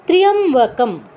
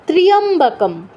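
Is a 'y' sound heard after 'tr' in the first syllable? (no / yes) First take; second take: yes; yes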